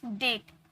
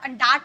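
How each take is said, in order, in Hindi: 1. स्वर एक 'ay' ध्वनि है। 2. स्वर एक लंबी 'aa' ध्वनि है। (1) "यहाँ पर ए का उच्चारण आया ना" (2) "डाट बोले क्या, ए का साउंड तो आ से भी निकलता है"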